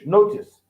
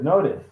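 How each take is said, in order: First: It is said with a British accent. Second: It is said with an American accent.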